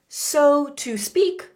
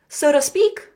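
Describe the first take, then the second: First: It is said slowly, each word clear. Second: It is said quickly, words run together.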